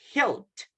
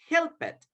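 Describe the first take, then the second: First: The ending is a short t sound. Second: The ending is an extra syllable, 'id'. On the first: The speaker calls it right. "we pronounce a letter T" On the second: The speaker calls it wrong. "So we don't say"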